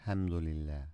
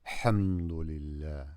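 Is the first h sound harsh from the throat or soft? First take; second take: soft; harsh. First: The first h is a soft, plain breath. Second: The first h is forced hard from the throat. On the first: The speaker calls it wrong. "Not hamdulillah" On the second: The speaker calls it right. "This is the ha. From hamdulillah"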